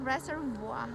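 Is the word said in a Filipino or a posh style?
posh. It is said in a posh, refined accent. "Pag i-pronounce mo ng medyo social"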